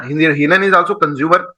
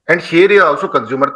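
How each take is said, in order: First: Slow, each word laid out: हिरन is also consumer; deliberate classroom emphasis, rising on is; slow emphatic teaching. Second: Slow, each word laid out: शेर is also consumer; same slow frame, now with the lion; deliberate parallel emphasis, rising on is; slow emphatic teaching. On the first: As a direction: spell it out slowly for the class. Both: Shown as a demonstration.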